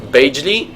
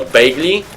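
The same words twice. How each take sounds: First: "Bagli" with the g as in gem; English soft G. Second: "Bagli" with the g as in go; regular hard G. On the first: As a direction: say "Bagli" with a j sound for the g. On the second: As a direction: say "Bagli" with a hard g, not a j sound. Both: Shown as a demonstration. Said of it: "it's like a regular G, not like in English".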